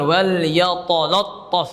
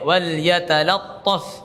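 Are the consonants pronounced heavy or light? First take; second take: heavy; light. First: The consonants sound thick and heavy. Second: The consonants sound thin and light. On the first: The speaker calls it wrong. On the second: The speaker calls it right.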